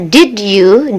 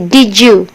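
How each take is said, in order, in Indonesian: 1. Bunyi d dan y diucapkan terpisah. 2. Bunyi d dan y menyatu menjadi bunyi j. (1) "did you itu sudah biasa" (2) "D ketemu Y itu di uh, pronunciation, Y nya berubah menjadi huruf J"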